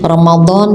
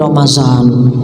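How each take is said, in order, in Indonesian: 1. Konsonan setelah 'Rama' adalah bunyi d. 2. Konsonan setelah 'Rama' adalah bunyi z.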